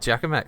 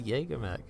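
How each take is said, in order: First: The first part sounds like 'jagga'. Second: The first part sounds like 'jaeger'. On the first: This is how another person says it. The speaker calls it wrong. "he was calling it Jagamech for fucking decades" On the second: This is the accepted way to say it. The speaker calls it right. "no, it's a Jaegermech"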